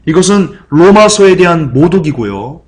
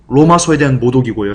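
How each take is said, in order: First: 로마서에 stretched out, rising and a bit louder; slow emphatic stress on 로마서에. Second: Said in the usual way. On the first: Shown as a demonstration. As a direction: lean hard on 로마서에, slowly.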